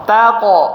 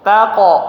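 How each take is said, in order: Both takes have the same delivery.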